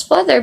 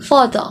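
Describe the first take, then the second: First: FATHER said with the final R sounded; pronounced R. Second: FATHER said "fah-tha", R left out; British silent R. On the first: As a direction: end "father" on a clear "r". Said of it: "We simply pronounce this as father". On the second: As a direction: end "father" on "uh", no r. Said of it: "But in British". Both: Shown as a demonstration.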